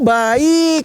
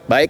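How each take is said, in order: First: It is said in a content, cheerful tone. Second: It is said in an upset, curt tone. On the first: The person really is fine. "Oke, okay, it's good" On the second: The person is actually not fine. "artinya nggak baik"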